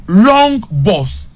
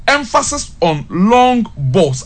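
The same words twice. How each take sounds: First: Said in the usual way. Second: Long balls drawn out slowly, each word weighted; slow emphatic stress on long balls. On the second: Shown as a demonstration. Pundit to co-host, stressing Accra's tactic, slow and weighted. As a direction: lean on long balls slowly to drive the point home.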